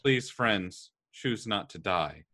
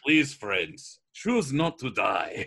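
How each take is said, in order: First: It is said in the speaker's ordinary accent. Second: It is said in a put-on Russian accent.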